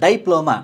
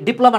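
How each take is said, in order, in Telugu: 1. మొదటి అక్షరంలో దీర్ఘ 'eye' శబ్దం ఉంది. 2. మొదటి అక్షరంలో చిన్న 'i' శబ్దం ఉంది. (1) "డై అంటే ద్వి" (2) "డిప్లొమా అన్న కూడా"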